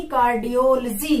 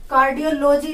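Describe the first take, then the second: First: कार्डियोलॉजी as car-di-OL-jee; corrected pronunciation. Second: कार्डियोलॉजी as cardio-LOH-jee; mispronounced कार्डियोलॉजी. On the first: (कार्डियोलॉजी को कार्डियोल-जी बोलकर) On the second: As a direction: keep लॉजी a separate unit in कार्डियोलॉजी. (कार्डियोलॉजी को कार्डियो-लोजी तोड़कर) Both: Shown as a demonstration. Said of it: "कार्डियोलॉजी नहीं".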